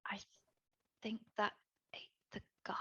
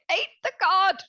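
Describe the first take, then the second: First: Barely audible, halting whisper; hushed, broken-up dread; horrified whisper. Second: Higher, voiced exclamation of alarm; raised-pitch horrified announcement; alarmed outburst. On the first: Acted. Dread realization, then repeated aloud. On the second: Repeats it aloud when questioned.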